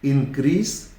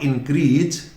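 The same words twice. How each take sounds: First: The word ends with an s sound. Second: The word ends with a z sound. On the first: The speaker calls it right. "से होना चाहिए" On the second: The speaker calls it wrong. "Not इंक्रीज"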